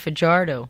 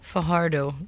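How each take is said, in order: First: The j is an English j sound. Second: The j is a throaty, h-like sound. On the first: This is how Americans say the name. "Americans call it Fajardo" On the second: This is how the name is said natively. "It's even harder than a Stefan"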